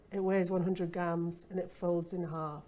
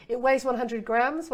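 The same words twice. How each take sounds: First: Flat feature statement. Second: Slow, louder with a rising lift on weighs; set up for benefit. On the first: Copywriter reading a hanger spec, flat and dull. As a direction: lower and softer, plain list read. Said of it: "If you were to focus purely on the features". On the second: Copywriter turning a spec into a benefit, slow and rising. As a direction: lean in, leading to the benefit. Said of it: "Well, what's better to say?". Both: Shown as a demonstration.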